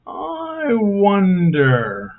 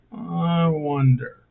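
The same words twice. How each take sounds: First: Slow, high, drawn-out musing; theatrical wondering. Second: Said in the usual way. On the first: Acted. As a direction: stretch it out like a puzzled sigh.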